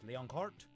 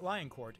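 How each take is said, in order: First: The name is said in a fancy way. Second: The name is said in a plain way. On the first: The speaker calls it right. "because you have to pronounce it fancy" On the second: The speaker calls it wrong. "not Lioncourt"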